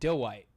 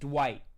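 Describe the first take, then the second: First: It sounds like 'D' then 'white', two syllables. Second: It is one syllable, rhyming with 'quite'. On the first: It imitates how another person said it. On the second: It is how most people say it. "most people say it like Dwight. Like like quite"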